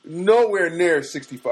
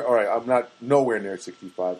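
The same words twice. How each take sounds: First: NOWHERE drawn out slow and higher, "nowhere near sixty-five"; stretched nowhere. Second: Said in the usual way. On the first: Retold or imitated. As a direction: lean long on "nowhere", slowed down. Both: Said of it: "all right, I'm near".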